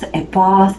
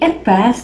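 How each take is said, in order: First: It is said with a British accent. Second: It is said with an American accent.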